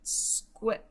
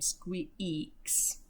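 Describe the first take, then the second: First: Squiax with a short E, the wrong way; wrong short vowel. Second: Squeaks with a long E that says its name; squeaks, long E, the right way; long vowel. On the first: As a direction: read Squiax as it looks, short E. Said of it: "That's not a word". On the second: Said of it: "its long sound where it says its name". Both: Shown as a demonstration.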